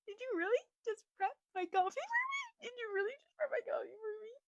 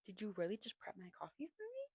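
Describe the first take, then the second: First: Very high, tiny gushing voice; high-pitched mock-tearful disbelief; overwhelmed squeal. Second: Soft whisper rising into a question; hushed, breath-only question; whispered disbelief. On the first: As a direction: squeak it out like you're melting. Repeats it, mock-overwhelmed by sweetness. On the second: Acted. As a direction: whisper it, touched and incredulous. Acts out her touched disbelief.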